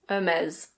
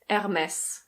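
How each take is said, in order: First: It is said with a British pronunciation, no R. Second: It is said with a French pronunciation. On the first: "In British English, it's Hermès" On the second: "In French, this is pronounced Hermès"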